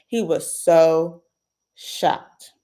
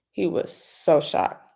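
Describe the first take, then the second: First: He was so stretched slowly, shocked breathed without voice; breathless dramatic beat; drawn-out breathy shocked. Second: Said in the usual way. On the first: Real, not acted. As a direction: drag out so, then breathe shocked.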